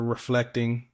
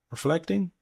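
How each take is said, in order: First: Said in the usual way. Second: "Reflecting" rising at the end like a question. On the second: Real, not acted. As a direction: say "Reflecting" higher, unsure it is the word. Asking if the word is right.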